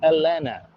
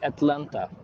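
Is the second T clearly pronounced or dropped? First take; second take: dropped; pronounced. First: The second T is dropped. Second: The second T is clearly pronounced. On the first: "they call it Atlanta" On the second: "they don't say Atlanta"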